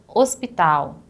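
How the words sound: It is pronounced with Portuguese sounds. "hospital em português"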